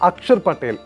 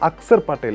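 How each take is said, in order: First: The first name has a 'ksh' sound. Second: The first name has a plain 'ks' sound. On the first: This is the form the player uses himself. "അക്ഷർ Patel A K S H A R Patel" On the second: This is the form used in official records. "അക്സർ Patel A X A R Patel"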